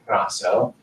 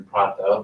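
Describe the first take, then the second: First: "praso" with an s where Athenians have t; "praso", s sound in place of t; non-Athenian Greek pronunciation. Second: "prato" with a clear t; "prato", t rather than double-s sound; Athenian pronunciation. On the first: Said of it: "other Greeks would say praso". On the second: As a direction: say "prato" as Athenians would, keeping the t. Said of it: "Athenians would say prato". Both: Shown as a demonstration.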